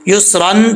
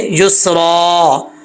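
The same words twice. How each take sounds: First: युसरन with final "an" sounded; tanween ending. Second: युसरा drawn out to a long final aa; waqf ending. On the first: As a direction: close युसरन on a clear n. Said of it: "युसरन से युसरा". (युसरन के आख़िर में नून की आवाज़) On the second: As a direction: drop the n and lengthen the end of युसरा. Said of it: "पढ़ा जाएगा वक्फ में". (युसरा, वक्फ में लंबा अलिफ) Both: Shown as a demonstration.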